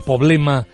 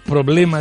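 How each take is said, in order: First: The word is said without its r sound. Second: The word is said with its r sound. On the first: The speaker calls it wrong. "esa ausencia de R" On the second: The speaker calls it right. "En vez de decir problema"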